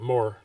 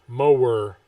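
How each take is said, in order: First: The word is said with one syllable. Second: The word is said with two syllables.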